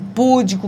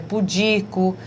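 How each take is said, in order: First: The stress is on the first syllable. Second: The stress is on the second syllable. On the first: The speaker calls it wrong. "com púdico" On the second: The speaker calls it right. "que na verdade é pudico"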